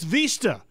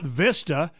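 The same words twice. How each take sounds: First: The word is said with Spanish pronunciation. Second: The word is said with English pronunciation. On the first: The speaker calls it right. "in Spanish it's" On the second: The speaker calls it wrong. "it's not Vista"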